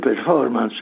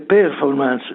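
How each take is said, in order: First: The stress falls on the second syllable. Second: The stress falls on the last syllable. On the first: The speaker calls it right. "ma si dice performance" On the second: The speaker calls it wrong. "performance non si dice"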